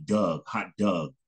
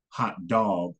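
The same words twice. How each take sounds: First: "Doug" for dog, with a short uh vowel; Detroit pronunciation. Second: "dog" said the North Carolina way, with a rounded aw vowel; North Carolina pronunciation. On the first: Teacher contrasting regional dialects, Detroit pronunciation of dog as "Doug". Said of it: "Detroit or something like that". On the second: Teacher showing students how North Carolina says "dog", regional pronunciation. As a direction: say "dog" as a drawn-out "dawg". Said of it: "in North Carolina, we would say". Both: Shown as a demonstration.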